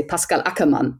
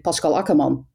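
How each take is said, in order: First: Pascal Ackermann with flat a's, pass-kal ack-er-man; German pronunciation. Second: Pascal Ackermann with Dutch vowels, ahs-kahl ah-ker-mahn; Dutch pronunciation. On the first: Showing a listener the German way to say Pascal Ackermann. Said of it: "In German you would say". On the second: Showing a listener the Dutch way to say Pascal Ackermann. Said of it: "in Dutch you would say". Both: Shown as a demonstration.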